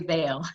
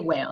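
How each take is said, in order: First: The word begins with a V sound. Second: The word begins with a W sound. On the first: "So you can just say veil" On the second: "Or you can say whale. That's up to you"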